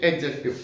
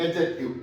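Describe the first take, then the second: First: एडजेक्टिव said carefully as a model word for students; correct pronunciation. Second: एडजेक्टिव said as a model, without a separate D sound between the A and the J; correct pronunciation. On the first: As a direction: pronounce एडजेक्टिव clearly, syllable by syllable. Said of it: "इसकी correct pronunciation होती है". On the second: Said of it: "ए और जे के बीच में डी की sound ... नहीं करेंगे". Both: Shown as a demonstration.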